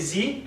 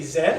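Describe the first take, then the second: First: It is said the American way, 'zee'. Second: It is said the British way, 'zed'.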